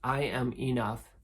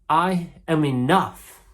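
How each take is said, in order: First: It is said calmly, with low intensity. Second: It is said with the most intensity.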